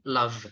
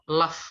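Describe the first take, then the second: First: The word ends with a v sound. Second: The word ends with an f sound. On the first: It means loving someone. The speaker calls it right. "Yang kedua kita pakai V" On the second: It sounds like asking about laughing at someone. The speaker calls it wrong. "yang pertama di atas kita pakai F"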